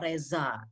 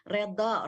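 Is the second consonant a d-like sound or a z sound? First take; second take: z sound; d sound. First: The second consonant is a z sound. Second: The second consonant is a heavy d-like sound.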